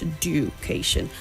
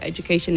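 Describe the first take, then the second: First: The 'du' sounds like a separate 'dyu' sound. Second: The 'du' sounds like a 'j' sound. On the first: The speaker calls it wrong. "and not education" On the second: The speaker calls it right. "it's j"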